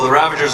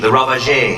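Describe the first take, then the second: First: The name has a plain English pronunciation. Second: The name has a French-style pronunciation.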